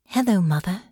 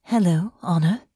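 First: A gentle hello with a light rise. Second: Tentative. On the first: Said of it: "answered gently". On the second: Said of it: "gave Honor a tentative smile". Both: Acted.

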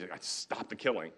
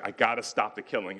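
First: Softer, slow and steady resolve; calm, not rage. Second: Said in the usual way. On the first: Retold or imitated. York resolving to end the killing, softer, slow and without rage. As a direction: say it quietly, without anger, slow. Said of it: "It's not rage". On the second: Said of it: "It's not rage, though".

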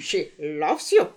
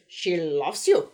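First: Slow laughing mock German accent; bad German accent, laughing. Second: Slow, heavy mock German accent; bad German accent. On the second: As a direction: sing it in a hammy German accent. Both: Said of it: "the bad, uh, German accent".

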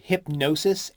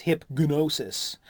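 First: Said in the usual way. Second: Hipgnosis said very slowly, every syllable clear, hip-g-nosis; slow careful spelling-out. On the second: Shown as a demonstration. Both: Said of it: "H I P G N O S I S".

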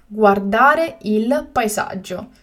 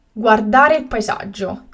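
First: Slow and carefully spaced; slow, clear repetition. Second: Said in the usual way. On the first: Shown as a demonstration. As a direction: say it again slowly for learners. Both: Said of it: "teacher repeats the word twice".

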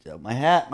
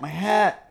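First: Said in the usual way. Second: High, thin, fretful repeat; a high mock-worried whine about his hat; squeaky mock-anxious my hat. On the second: Joking about hat fears.

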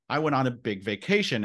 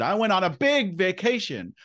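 First: Said in the usual way. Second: "big" pitched way up and stretched; big inflection. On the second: Retold or imitated. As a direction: swell the voice high on "big". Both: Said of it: "you heard the inflection in my voice".

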